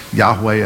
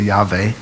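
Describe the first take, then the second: First: "Yahweh" with a W sound; W pronunciation. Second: "Yahweh" with a V sound; V pronunciation. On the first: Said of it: "That's why some people say". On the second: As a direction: say "Yahweh" as YAH-vay, v replacing the w. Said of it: "the V sound is the later sound". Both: Shown as a demonstration.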